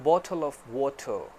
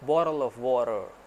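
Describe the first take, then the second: First: It is said in a British English accent. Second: It is said in an American English accent. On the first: "accent ले लें British वाला" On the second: "यही American accent"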